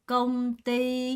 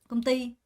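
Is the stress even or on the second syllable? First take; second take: even; second syllable. First: Both syllables are said slowly with equal weight. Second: The stress falls on the second syllable. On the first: The speaker calls it wrong. "이거를 công ty 이렇게 읽는 사람은 아무도 없어요" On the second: The speaker calls it right. "띠 강세가 있는 거 느껴지죠?"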